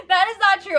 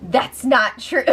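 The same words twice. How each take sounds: First: "not" pushed higher with falling tune; stress on not. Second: Said in the usual way. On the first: Real, not acted. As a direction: lean hard on "not" in "That is not true". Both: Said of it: "I just wanna make that clear".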